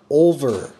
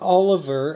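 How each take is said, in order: First: No vowel is heard between L and V. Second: An extra vowel is heard between L and V. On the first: The speaker calls it right. "It is Mark Olver" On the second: The speaker calls it wrong. "Not Oliver, as a lot of people pronounce it"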